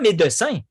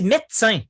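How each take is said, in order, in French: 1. Chaque syllabe écrite est prononcée, voyelle du milieu comprise. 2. La voyelle du milieu est supprimée, ce qui donne deux syllabes. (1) "on ne dit pas" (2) "on dit"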